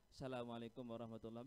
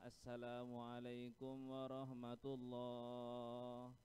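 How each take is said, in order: First: The greeting is said briskly. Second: The greeting is drawn out slowly. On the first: The speaker calls it right. "Mestinya ... begitu" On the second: The speaker calls it wrong. "itu kan panjang"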